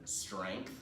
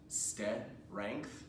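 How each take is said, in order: First: The consonant cluster runs together without vowels. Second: Extra vowels break up the consonant cluster. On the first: The speaker calls it right. "where it runs all the way through" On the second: The speaker calls it wrong. "They tend to add an extra vowel in there"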